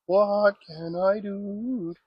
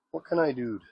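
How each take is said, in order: First: Stretched-out, pondering what; slow drawn-out question. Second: Said in the usual way. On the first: Real, not acted. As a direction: drag out each word, puzzled. Repeated, drawn out slowly.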